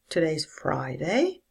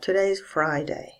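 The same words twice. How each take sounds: First: It starts low and rises up. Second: It starts low and falls even lower. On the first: It sounds like a question. "A low rise" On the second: It simply states a fact. "can be said with a low fall"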